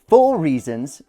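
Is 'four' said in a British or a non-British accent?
British. Four is said in a British accent.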